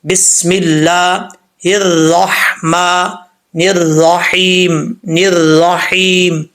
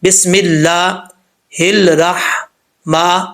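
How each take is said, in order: First: الرحمن and الرحیم recited slowly with a clear rolled ر; correct ra. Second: الرحمن said with the ر slurred to an l sound, slowly; ra read as lam. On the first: Teacher showing students the correct ر in الرحیم, slow recitation. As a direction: give الرحیم a crisp trilled ر, not an l. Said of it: "اسی کو را پڑھیں گے تو کیسے پڑھیں گے". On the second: Teacher demonstrating to students how ر sounds when it is read as لام. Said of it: "اب دیکھیے گا اس کا ساؤنڈ کیا آتا ہے". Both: Shown as a demonstration.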